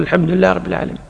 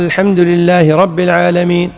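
First: Softer and quicker repeat of "الحمد لله رب العالمين"; quiet follower. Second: Said in the usual way. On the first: Shown as a demonstration. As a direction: echo the imam under your breath, quickly. (ترديد خافت وسريع خلف الإمام) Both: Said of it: "أنت تقول".

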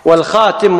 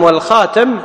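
First: والخاتم said with kasra on the ت, khatim. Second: والخاتم said with fatha on the ت, khatam, rising. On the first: To students, والخاتم with an i, khatim. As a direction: say والخاتم as walxatim, falling. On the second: To students, والخاتم with an a, khatam. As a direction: say والخاتم as walxatam, ending on a rise. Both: Shown as a demonstration. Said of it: "بمعنى واحد".

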